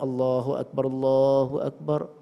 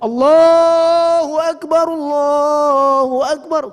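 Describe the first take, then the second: First: It is said softly, at moderate volume. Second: It is called out very loudly.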